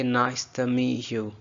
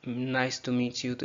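First: "meet you" without the T, as "mee-you"; silent T. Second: Said in the usual way. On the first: Shown as a demonstration. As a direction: drop the T at the end of "meet". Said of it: "इसमें टी नहीं बोलेंगे". ("meet" का टी silent) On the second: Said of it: "मीट का टी silent करके".

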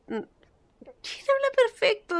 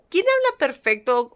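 First: "¿quién habla perfecto?" much higher and slow, drawn-out "perfecto" falling; mock-indignant high drawl; exaggerated retort. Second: Said in the usual way. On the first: Shown as a demonstration.

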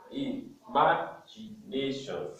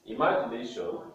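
First: "Imagination" slowly spaced out, syllable by syllable; syllabified. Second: Said in the usual way. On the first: Shown as a demonstration. Teacher showing five syllables, "Imagination" slowly broken up. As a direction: say "Imagination" as i, ma, gi, na, tion. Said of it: "It has five syllables". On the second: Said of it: "we are going to syllabify words".

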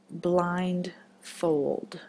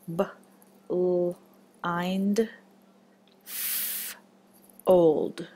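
First: Said in the usual way. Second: Put-on B-l-ind-f-old split slowly into its separate sounds and chunks; sounded out in parts. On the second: Shown as a demonstration. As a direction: stretch each part of B-l-ind-f-old apart, one at a time.

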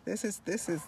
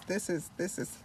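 Both takes have the same delivery.

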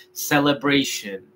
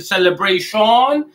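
First: "celebration" as "se-le-BREI-shen", light falling ending; correct English pronunciation. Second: "celebration" as "se-le-brei-SHON", full O; wrong Spanish-style pronunciation. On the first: Teacher models the word for learners, correctly pronounced. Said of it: "Vamos a decir celebration". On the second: Teacher tests learners with another mistake, mispronounced. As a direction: lift "celebration" on a heavy "shon". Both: Shown as a demonstration.

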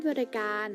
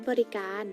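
Both takes have the same delivery.

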